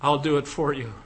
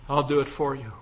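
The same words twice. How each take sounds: The two takes are said the same way.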